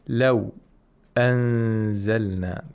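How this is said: A brief breath-hold comes before the glottal stop. "where sect takes place"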